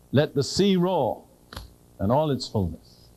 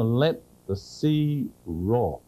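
First: Scripture reading. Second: Drawn out very slowly, each word weighted; slow proclamation. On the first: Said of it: "I read that, and it's almost as if I were kind of setting the stage". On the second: Preacher releasing the sea with a slow, weighty declaration. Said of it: "setting the stage". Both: Shown as a demonstration.

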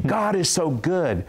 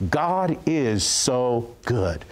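First: Higher and a bit slower; higher, insistent declaration. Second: Drawn-out, very slow; slow tearful declaration. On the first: Woman repeating her praise to the pastor, pitched higher. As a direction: lift it up with conviction. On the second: Woman in tears declaring to the pastor, drawn out slowly. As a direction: stretch each word out in awe. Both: Retold or imitated. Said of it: "she began to declare these words".

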